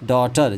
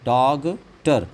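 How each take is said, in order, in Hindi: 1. t से पहले कोई g की ध्वनि नहीं बोली जाती। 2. t से पहले g की ध्वनि बोली जाती है। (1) "जी एच साइलेंट है" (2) "डॉगटर ना"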